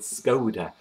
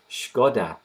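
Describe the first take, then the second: First: The name is said the English way. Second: The name is said the Czech way. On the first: "in English called Skoda" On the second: "in Czech the actual word is Škoda"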